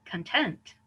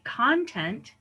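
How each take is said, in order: First: "content" as con-TENT; second-syllable stress. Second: "content" as CON-tent, drawn out; first-syllable stress. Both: Shown as a demonstration. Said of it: "we say them differently".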